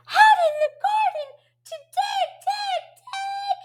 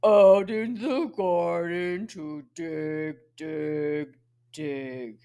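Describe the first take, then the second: First: Very high, quick echo of the line; high questioning voice. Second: Low pig voice. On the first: Teacher questioning the pig's answer, high voice. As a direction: squeal it back way up high. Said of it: "Ask him the question". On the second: Big pig answering the children's question, low voice. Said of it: "he uses his low voice". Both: Acted.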